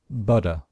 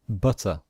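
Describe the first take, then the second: First: It is said with an American accent, D-like T. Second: It is said with a British accent, clear T.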